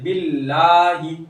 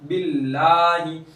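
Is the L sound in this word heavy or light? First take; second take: light; light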